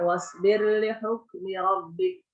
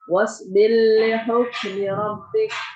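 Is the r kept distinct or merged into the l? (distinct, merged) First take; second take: distinct; merged. First: The r is pronounced clearly before the l. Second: The r merges into the following l. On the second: "Asusi it home satu wajah bacaan"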